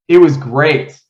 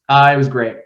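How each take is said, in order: First: It sounds genuinely happy and convincing. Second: It sounds forced and unconvincing.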